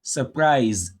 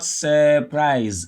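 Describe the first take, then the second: First: "Surprise" as suh-PRISE, first vowel short and weak; schwa first syllable. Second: "surprise" wrongly as SUUR-prise, slow first syllable; overlong ER vowel. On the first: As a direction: stress only the second syllable of "Surprise". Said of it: "the U R is pronounced as a schwa". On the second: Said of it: "They'll think whenever you have U R, you pronounce a long". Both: Shown as a demonstration.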